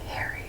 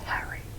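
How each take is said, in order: First: It is said in an American accent. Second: It is said in a British accent. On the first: "like how Americans pronounce it" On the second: "my family's from the U K, they say Harry"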